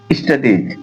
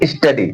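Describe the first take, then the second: First: "स्टडीज" with a clear ending ज; final sibilant sounded. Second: Said in the usual way. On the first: Shown as a demonstration. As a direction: finish "स्टडीज" on a sibilant, as a plural. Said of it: "स्टडीज सही है". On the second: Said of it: "स्टडी बोल रहे हैं? नहीं".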